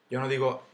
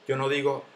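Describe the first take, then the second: No difference in how they are said.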